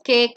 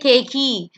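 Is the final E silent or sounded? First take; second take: silent; sounded. First: The final vowel is not pronounced. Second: The final vowel is pronounced aloud. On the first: The speaker calls it right. "the E becomes silent" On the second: The speaker calls it wrong. "you don't say cakey"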